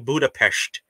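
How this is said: It is pronounced with a Russian accent. This is how one particular person says it. "her tongue becomes Russian when she says Budapest"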